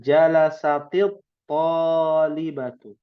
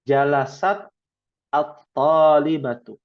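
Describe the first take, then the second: First: The words are linked with an i after t. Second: The two words are read separately, ending in t. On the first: "Karena kita bacanya menyambung, ... berubah harokatnya menjadi kasrah" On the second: "Kalau dibacanya terpisah-pisah"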